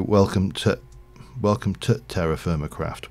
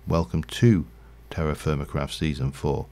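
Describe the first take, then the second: First: "to" cut to a short t sound in "welcome to"; Yorkshire reduced "to". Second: "to" sounded clearly as "too" in "Welcome to"; full "to". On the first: Streamer showing viewers Yorkshire speech, "to" reduced to t. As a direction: shrink "to" to a quick "tuh" before "Terra". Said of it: "we tend to do it with a t sound". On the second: Streamer revealing the hidden word to viewers, "to" said as "too". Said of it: "there is actually a hidden two". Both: Shown as a demonstration.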